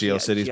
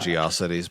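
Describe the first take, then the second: First: The word ends like the word 'cities'. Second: The word is said to rhyme with 'atrocity'. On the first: "Like not" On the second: "I always pronounce it ... like atrocity"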